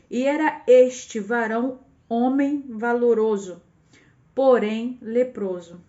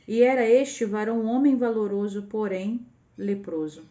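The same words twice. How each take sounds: First: It is read slowly with pauses. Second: It is read at a normal pace.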